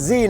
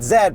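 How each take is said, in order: First: The letter Z has its American pronunciation. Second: The letter Z has a non-American pronunciation. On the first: The speaker calls it right. "which means America, which means Z" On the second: The speaker calls it wrong. "not Z"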